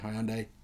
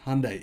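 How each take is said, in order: First: It is pronounced the way Australians say it. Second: It is pronounced the way Americans say it. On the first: "here in Australia, we say Hyundai" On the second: "You guys say it like that in America"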